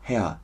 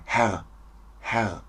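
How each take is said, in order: First: HERR ending in an "a" glide; soft vowel ending on Herr, like "hea"; shortened R in HERR. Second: HERR with a consonant R at the end; full, unshortened Herr; sounded R in HERR. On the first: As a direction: drop the consonant R from Herr. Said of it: "man kann es kürzen". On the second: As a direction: finish Herr on a throaty R. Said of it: "Aber man kann es kürzen". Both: Shown as a demonstration.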